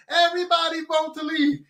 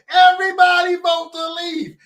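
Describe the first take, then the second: First: Said in the usual way. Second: High, loud shout of Everybody vote to leave; shouted plea. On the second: Retold or imitated. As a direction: hammer out "Everybody" loudly. First rallying call.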